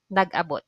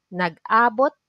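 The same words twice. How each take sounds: First: Nag-abot said quick with a falling end; staying sense, said fast; stress on last a. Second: Nag-abot with a rising lift on the first a; meet-up sense, stress early. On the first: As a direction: rush nag-abot and let it fall. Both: Shown as a demonstration. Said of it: "there is a difference on the stress at a".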